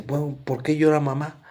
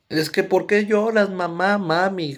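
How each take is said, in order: First: Said in the usual way. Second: Mock child asking mom why she cries; pleading child voice. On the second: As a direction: beg like a small kid asking mommy. Child asks crying mom, retold.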